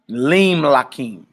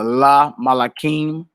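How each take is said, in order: First: The first vowel is an 'i'. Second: The first vowel is a short 'a'. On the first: The speaker calls it right. "you would say" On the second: The speaker calls it wrong. "instead of saying uh"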